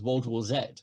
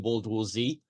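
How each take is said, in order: First: The letter Z is said the British way, 'zed'. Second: The letter Z is said the American way, 'zee'. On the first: "that's what that's called" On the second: "if you say it the American way"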